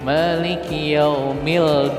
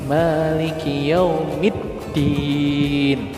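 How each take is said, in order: First: The L is pronounced before the D. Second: The L merges into a doubled D. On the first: The speaker calls it wrong. "Jangan dibaca dibaca seperti ini" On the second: The speaker calls it right. "Dibacanya kayak gini"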